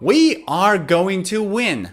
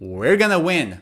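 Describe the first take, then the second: First: The words are said fully and separately. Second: The words blend into a short reduced form. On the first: "instead of going to" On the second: "native speakers say gonna"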